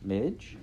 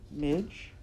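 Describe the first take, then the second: First: Said in the usual way. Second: Higher, uncertain questioning call; a tiny tremor of unease on the name; slightly shaky. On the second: A narrator's reading. Princess appealing to Midge before the knife, faintly fearful. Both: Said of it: "her voice shaking the tiniest bit".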